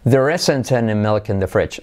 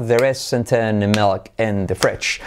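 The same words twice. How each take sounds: First: Said in the usual way. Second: Very slow, evenly beaten phrase; slow linked-word rhythm for learners; rhythmic drill. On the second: Shown as a demonstration. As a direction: stretch it out on a steady teaching beat. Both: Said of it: "Hacemos con ritmo".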